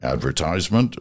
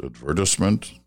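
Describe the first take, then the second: First: "Advertisement" stressed on first and third, long "tise" like ties; British-style stress. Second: "advertisement" stressed on the second syllable, "ver"; Canadian stress. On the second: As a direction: say "advertisement" as ad-VER-tis-ment. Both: Shown as a demonstration. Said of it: "emphasis on the second syllable".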